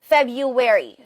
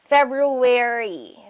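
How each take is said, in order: First: The first r is dropped, with a w-like glide. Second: Both r sounds are clearly pronounced. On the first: "Mag-i-insert tayo ng W in between the second and third syllable" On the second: "dinig yung dalawang R sounds"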